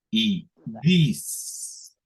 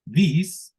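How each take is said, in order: First: This with a long drawn s; second take: This stretched out on the s. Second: This with a short clipped s; first take: This with a quick s. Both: Shown as a demonstration. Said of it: "escuchemos la diferencia entre".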